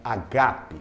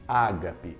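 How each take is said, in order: First: The stress is on the second syllable. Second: The stress is not on the second syllable. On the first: The speaker calls it right. "a expressão correta seria agape, porque agape traz a acentuação na segunda sílaba" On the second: The speaker calls it wrong. "Muita gente diz ágape"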